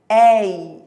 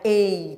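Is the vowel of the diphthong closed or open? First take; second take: open; closed. First: The diphthong is said with an open vowel. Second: The diphthong is said with a closed vowel. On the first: "Ditongo aberto tem a ver com timbre" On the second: "não é ei"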